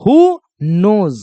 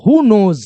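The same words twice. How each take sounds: First: "Who knows" drawn out word by word; slow, separated words. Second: Said in the usual way. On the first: Shown as a demonstration. Teacher repeating "Who knows" for pupils, slow and word by word. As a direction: give "Who" and "knows" each its own slow beat.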